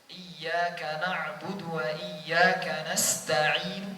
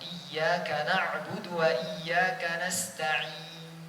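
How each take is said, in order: First: The last sound ends with a faint, partial vowel. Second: The last sound ends silently with only rounded lips. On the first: "Wakaf dengan ar-rom namanya. Contoh yang lain" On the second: "hanya isyarat mengoyongkan bibir ... tetapi tanpa suara"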